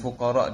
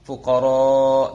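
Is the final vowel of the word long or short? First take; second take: short; long. First: The final vowel is cut short. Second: The final vowel is held long. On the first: The speaker calls it wrong. "dengan pendek gitu" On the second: The speaker calls it right. "dengan panjang"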